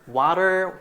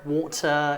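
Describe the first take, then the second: First: It is said in an American accent. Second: It is said in a British accent.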